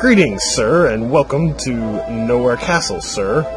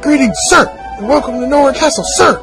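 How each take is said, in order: First: It is read in a plain, everyday voice. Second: It is read in a barked soldier voice. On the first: The speaker calls it wrong. "I did that wrong" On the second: The speaker calls it right. "Should have done it in the soldier voice"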